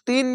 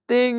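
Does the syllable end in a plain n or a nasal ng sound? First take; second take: plain n; nasal ng. First: The syllable ends in a plain n sound. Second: The syllable ends in a nasal ng sound. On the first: The speaker calls it wrong. "এখানে তিন বলবেন না" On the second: The speaker calls it right. "এটা অনেস্কারের মতো উচ্চারণ হবে তিং"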